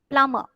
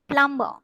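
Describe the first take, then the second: The two takes are said the same way.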